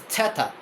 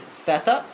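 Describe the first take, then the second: First: It begins with a t and a puff of air. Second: It begins with a soft th sound. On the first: This is the ancient pronunciation. "in ancient Greek is theta, which is uh, a aspirated T" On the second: This is the modern pronunciation. "theta in modern Greek is theta"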